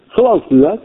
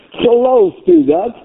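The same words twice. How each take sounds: First: Said in the usual way. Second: High, drawn-out insistent question; fervent challenge. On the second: Real, not acted. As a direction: press the congregation, pitch soaring. Preacher challenges congregation, repeating the question.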